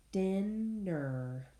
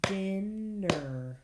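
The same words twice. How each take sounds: First: Said in the usual way. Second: "Dinner" said louder, beat by beat; teacher clapping out "Dinner" with the class; clapped syllables. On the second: Shown as a demonstration. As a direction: clap out each part of "Dinner". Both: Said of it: "Clap it".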